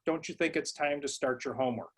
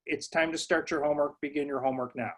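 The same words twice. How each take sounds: First: Soft suggestion phrased as a question, falling at the end; request as a question. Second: Calm, matter-of-fact statement, no question; just tell them what to do; direct command. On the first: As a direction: ask it gently instead of telling. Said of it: "Any command issued as a question". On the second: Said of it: "they should say". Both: Shown as a demonstration.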